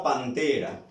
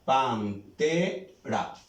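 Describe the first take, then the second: First: Said in the usual way. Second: "Pantera" slowly split as pan, TE, ra; "Pantera" spelled out by syllables, pauses between. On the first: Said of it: "¿Cuántas sílabas tiene?". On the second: Shown as a demonstration. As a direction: break "Pantera" into three slow syllables, stressing TE. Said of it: "Suena más fuerte en esta sílaba".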